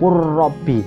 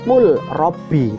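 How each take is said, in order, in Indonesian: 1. Huruf l melebur ke dalam bunyi r bertasydid. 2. Huruf l dibaca terpisah sebelum huruf r. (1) "bacanya yang benar yaitu kurrobi" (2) "Tulisannya kul robi"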